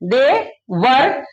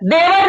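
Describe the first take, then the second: First: The two words are said clearly apart. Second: The two words are run together as one. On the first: It is heard as the English words 'they were'. The speaker calls it right. "दे अलग पढ़ना है वर अलग पढ़ना है" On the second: It sounds like the Hindi word for brother-in-law. The speaker calls it wrong. "देवर नहीं"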